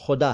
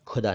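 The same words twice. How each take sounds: First: खुदा with a throaty fricative kh, xuda; correct Khuda. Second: खुदा with a hard aspirated kh, kʰuda; wrong Khuda. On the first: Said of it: "खुदा नहीं". (सही उच्चारण: ख़ुदा, नुक्ते वाला ख़) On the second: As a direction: say खुदा with a plain kh, like digging. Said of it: "वो खुदा है, खुदा नहीं". (ग़लत उच्चारण: खुदा, सख़्त ख) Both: Shown as a demonstration.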